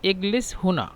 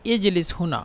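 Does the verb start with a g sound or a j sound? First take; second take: g sound; j sound. First: The verb is said with a g sound. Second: The verb is said with a j sound. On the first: This is the Egyptian regional form. "মিশরের আঞ্চলিক ভাষা হলো এগলেস" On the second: This is the standard Arabic form. "আরবের শুদ্ধ ভাষা"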